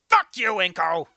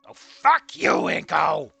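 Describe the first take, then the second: First: It sounds angry and sharp. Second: It sounds light and playful, not angry.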